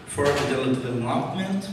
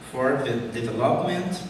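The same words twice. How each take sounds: The two takes are said the same way.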